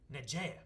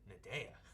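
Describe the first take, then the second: First: The middle consonant is a J sound. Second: The middle consonant is a D sound. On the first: "he's like" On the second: "instead of a J, it's a D sound"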